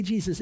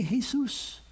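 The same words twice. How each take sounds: First: "Jesus" said the English way, JEE-zus; English pronunciation. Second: "Jesus" said the Spanish way, hey-SOOS; Spanish pronunciation. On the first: Preacher allowing each language its name, "Jesus" in English pronunciation. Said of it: "If you're speaking English". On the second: Preacher allowing each language its name, "Jesus" in Spanish pronunciation. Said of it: "if you're Spanish, you can say". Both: Shown as a demonstration.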